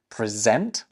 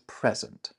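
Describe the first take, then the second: First: The stress is on the second syllable. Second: The stress is on the first syllable. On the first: It is a verb meaning to give formally. "with the emphasis on the second syllable" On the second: It is a noun meaning a gift. "a gift"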